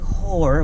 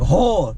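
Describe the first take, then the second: First: The word is said in a standard American accent. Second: The word is said in a Baltimore accent.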